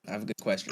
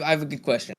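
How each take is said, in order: First: Soft unvoiced whisper. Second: Said in the usual way. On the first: Shown as a demonstration. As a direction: whisper it secretly. Repeats line whispered.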